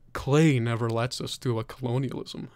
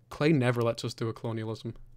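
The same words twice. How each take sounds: First: It is read in a put-on character voice. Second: It is read in the speaker's normal voice.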